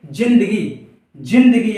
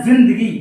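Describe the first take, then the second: First: जिंदगी with a plain j, jindagi, no buzz; Hindi j sound. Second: जिंदगी with a buzzing z, zindagi; Urdu z sound. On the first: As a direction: say जिंदगी as j not z. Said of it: "यहाँ पर जा में कोई झनकार नहीं आएगी". (जिंदगी सादे ज के साथ, बिना झनकार) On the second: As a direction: put a clear z buzz in जिंदगी. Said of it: "यहाँ पर जा में झनकार लगाई जाती है". (ज़िंदगी, ज़ में झनकार के साथ) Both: Shown as a demonstration.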